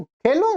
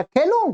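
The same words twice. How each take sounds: First: खेलूं with a rising, asking tune; खेलूं lifted at the end like may I play; asking permission. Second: Said in the usual way. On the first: Shown as a demonstration. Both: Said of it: "माने आज्ञा लेने में खेलूं".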